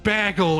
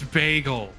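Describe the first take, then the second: First: It is said in an Ottawa Valley accent. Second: It is said with the first vowel lengthened.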